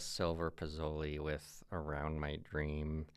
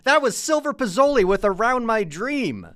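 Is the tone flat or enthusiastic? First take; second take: flat; enthusiastic. First: It is said flatly, without enthusiasm. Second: It is said with lively enthusiasm.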